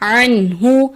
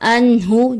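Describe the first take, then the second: First: The word starts with a tight throaty ain. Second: The word starts with a plain glottal stop. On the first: The speaker calls it right. "दुरुस्त अदायगी है" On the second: The speaker calls it wrong. "आइन की जगह हमजा की अदायगी ... जो कि दुरुस्त नहीं"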